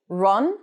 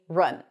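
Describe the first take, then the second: First: The vowel sounds like a rounded 'oh'. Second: The vowel sounds like a central 'uh'. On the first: The speaker calls it wrong. "they tend to turn it into an O" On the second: The speaker calls it right. "the cup sound"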